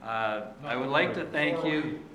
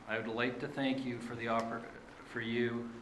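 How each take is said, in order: First: Composes himself and starts over louder; louder, steadier second attempt after stumbling; fresh louder restart. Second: Nervous. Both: Real, not acted. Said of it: "a little nervous".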